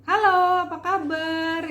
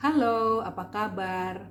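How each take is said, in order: First: Higher, louder casual greeting; chirpy everyday hello; light everyday voice. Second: Lowered formal voice. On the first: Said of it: "maka kita akan begini". (suara ringan sehari-hari) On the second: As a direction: bring the pitch down for a formal hello. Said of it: "maka kita bisa rendahkan nadanya". (nada direndahkan untuk forum) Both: Shown as a demonstration.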